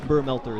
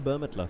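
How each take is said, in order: First: The L sound comes before the T sound. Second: The L sound comes after the T sound. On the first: The speaker calls it wrong. "I keep saying Burmelter and it's not" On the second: The speaker calls it right. "It's Bur- Burmetler"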